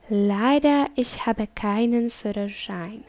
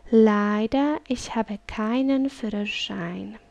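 No difference in how they are said.

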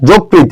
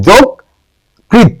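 First: যকৃত in one quick word, as commonly misspoken; wrong pronunciation demo. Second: যকৃত very slowly split, "jok... krit"; correct pronunciation demo. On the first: Retold or imitated. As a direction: run যকৃত together casually, the r weak. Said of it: "অনেকেই বলে এটা যকৃত". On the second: Shown as a demonstration. Teacher correcting what many say, যকৃত split with clear r. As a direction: stretch যকৃত in two beats, r clearly sounded. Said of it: "এটা হচ্ছে".

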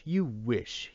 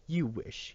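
First: A touch of a yell, repeated; mild mock yell. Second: Higher, sharp mock yell. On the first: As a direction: throw it back at him a second time. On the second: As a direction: snap it back at him. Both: A narrator's reading. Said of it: "yelled Tom".

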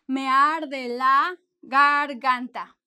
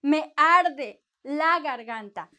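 First: Me arde la garganta said even more slowly and a bit louder; slow repeat. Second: Me arde la garganta said slowly and carefully, stress on arde; slow clear model. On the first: Teacher repeating the phrase slowly for students. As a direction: draw out Me arde la garganta for the class to copy. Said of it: "What, what do you say?". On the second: Teacher modelling the phrase for students to repeat. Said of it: "you can also say". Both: Shown as a demonstration.

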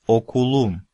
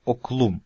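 First: Окулум in three syllables, у sounded after к; middle vowel kept. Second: Оклум in two syllables, к straight into л; middle vowel dropped. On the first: Teacher giving the real form of "my school", окулум with у kept. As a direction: say окулум with both у vowels intact. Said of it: "Но выпадение не происходит". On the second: Teacher showing what the rule would give, оклум with у dropped. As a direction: say оклум without an у after к. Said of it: "должна была выпасть буква". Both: Shown as a demonstration.

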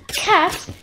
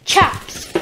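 First: "Caps" said with a hard k; "Caps" pitched up as a query; wrong word queried. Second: "Chaps" begun with a ch sound; "Chaps" said with ch, not k; corrected word. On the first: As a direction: try out "Caps", doubting it. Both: Shown as a demonstration. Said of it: "They're not caps, are they?".

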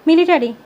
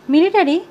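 First: Urgent, raised-voice warning; panting alarm. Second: High, loud startled question; taken aback. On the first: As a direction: blurt out the alarm, higher and louder. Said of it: "হাঁপাতে হাঁপাতে বললাম". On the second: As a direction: echo it back in startled disbelief. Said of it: "Masud ভাই হকচকিয়ে গেল". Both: A narrator's reading.

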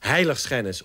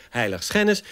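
First: HEIligschennis, accent on the first syllable; HEIligschennis, front-stressed; stress on HEI. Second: HeiligSCHENnis, accent later in the word; questioning heiligSCHENnis; stress on SCHEN. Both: Shown as a demonstration. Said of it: "op het terrein van de klemtonen".

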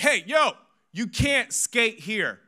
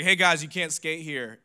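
First: High, loud, drawn-out telling-off; scolding shout. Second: Said in the usual way. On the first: Retold or imitated. Pastor yelling at skateboarding boys, exaggerated scolding shout. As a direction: shout at the kids like the old pastor. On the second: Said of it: "That didn't happen".

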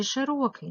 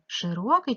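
First: "широкий" with the first vowel said as "е"; Y turned to E. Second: "Широкий" with "и" in the first syllable; clear Y vowel. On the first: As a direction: sound out "широкий" as she-ro-kyi. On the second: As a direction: sound out "Широкий" as shy-ro-kyi. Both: Shown as a demonstration. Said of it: "Не знаю, як писати".

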